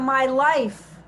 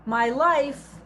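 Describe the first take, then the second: First: "my life" said a bit louder, falling on life; stressed "my life" as the point of the verse. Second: Said in the usual way. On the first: Shown as a demonstration. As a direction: lean into "my life" to show the emphasis. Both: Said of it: "the emphasis is on".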